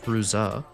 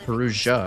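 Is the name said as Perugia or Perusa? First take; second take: Perusa; Perugia. First: The name is said plainly as Perusa. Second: The name is said like the Italian Perugia. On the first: The speaker calls it right. "it's just Perusa" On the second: The speaker calls it wrong. "I've been saying it wrong the entire time"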